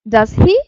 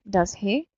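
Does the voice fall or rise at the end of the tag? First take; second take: rise; fall. First: The pitch rises at the end of the tag. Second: The pitch falls at the end of the tag. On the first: The speaker is not sure and wants the answer. "intonation of the question tag goes up" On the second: The speaker is checking information or making conversation. "tag goes down"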